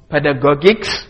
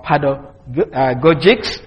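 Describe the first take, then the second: First: "pedagogics" with a hard g in the last syllable; hard-g pronunciation. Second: "pedagogics" with a soft g, like j, in the last syllable; soft-g pronunciation. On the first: Lecturer showing one way of saying the English word, hard-g pronunciation of "pedagogics". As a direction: say "pedagogics" ending in "-gog-icks". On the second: Lecturer showing the other way of saying it, soft-g pronunciation of "pedagogics". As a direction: say "pedagogics" slowly, ending in "-goj-icks". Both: Shown as a demonstration. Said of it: "depending on which way you pronounce it".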